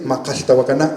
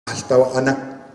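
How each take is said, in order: First: "Macaltahuacana" with the k sound fully pronounced; other variants' pronunciation. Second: "Macaltahuacana" with the k sounds dropped, like "ma-alta-wa-ana"; missing consonant. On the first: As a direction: say "Macaltahuacana" with every consonant sounded. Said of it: "o decir como en otras". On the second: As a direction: leave gaps for the k's in "Macaltahuacana". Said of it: "la ausencia del sonido". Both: Shown as a demonstration.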